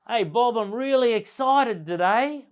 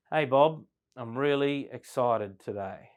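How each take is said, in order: First: High, loud and bright with excitement; excited. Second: Said in the usual way. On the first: Shown as a demonstration. A sales trainer demoing excited delivery to a room. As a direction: sell the excitement, big and loud. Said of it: "I could say the same words very differently". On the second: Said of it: "Or I could say".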